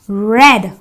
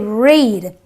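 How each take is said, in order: First: The vowel is a short 'eh' sound. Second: The vowel is a long 'ee' sound. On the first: The reading happened in the past. The speaker calls it right. "The E A gives me the S sound, so I say read" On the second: The reading happens in the present. The speaker calls it wrong. "I don't say read"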